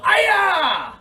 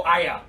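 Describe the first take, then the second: First: A high, loud karate yell; loud shout. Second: Said in the usual way. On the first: Shown as a demonstration. Teacher showing kids how loud to yell, high shout. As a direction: belt it so the class can hear. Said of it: "Well, I can't hear". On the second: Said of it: "Let me hear you go".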